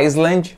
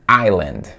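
First: An S sound is pronounced in the middle. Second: No S sound is pronounced in the middle. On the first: The speaker calls it wrong. "Não é Island, você não vai puxar esse S aí" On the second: The speaker calls it right. "capa esse S fora, o S, e a pronúncia correta é Island"

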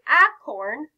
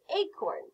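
First: The first vowel is the short a sound. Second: The first vowel is the long a sound. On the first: The speaker calls it wrong. "We wouldn't say acorn" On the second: The speaker calls it right. "we would say acorn"

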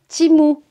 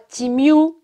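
First: The last syllable is a plain 'moo' sound. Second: The last syllable has a 'y' glide: 'myoo'. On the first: The speaker calls it right. "c'est Timou" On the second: The speaker calls it wrong. "c'est pas Timiou"

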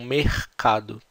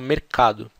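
First: It is said with a Rio de Janeiro accent. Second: It is said with a São Paulo accent. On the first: "No Rio eles falam mercado" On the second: "Aqui em São Paulo a gente fala mercado"

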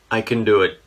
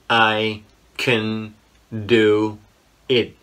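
First: It is said at a normal, quicker speed. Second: It is said slowly and deliberately.

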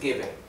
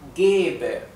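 First: The first e vowel is said short. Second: The first e vowel is held long. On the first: The speaker calls it wrong. "no es geber" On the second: The speaker calls it right. "esto es geber"

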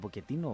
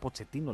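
First: The middle consonant is a k sound. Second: The middle consonant is a ch sound. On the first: "λέγεται Ποκετίνο" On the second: "Έτσι είναι το σωστό"

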